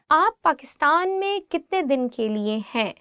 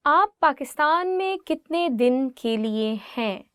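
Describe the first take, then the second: No difference in how they are said.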